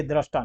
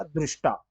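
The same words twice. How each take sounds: First: दृष्टा said with "ra", as drashtaa; दृष्टा pronounced DRASH-taa; contrasting "ra" form. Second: दृष्टा said with a "ri" sound, drishtaa; दृष्टा as DRISH-taa; "ri" pronunciation. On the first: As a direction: open the first vowel of दृष्टा to "a". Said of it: "ये दृष्टा नहीं". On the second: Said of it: "री का उच्चारण होता है". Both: Shown as a demonstration.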